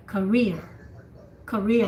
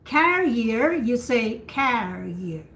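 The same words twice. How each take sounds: First: Skim the ka in career, land on rear; stress on rear. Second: Carrier with CA strong and the second syllable whispered; slow model of carrier for a dog carrier; stress on first syllable. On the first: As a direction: demo of career for a job. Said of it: "it's like the first syllable". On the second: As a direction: hit CA in carrier and let the rest fall away. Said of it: "you whisper the second syllable". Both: Shown as a demonstration.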